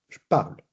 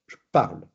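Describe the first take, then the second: No difference in how they are said.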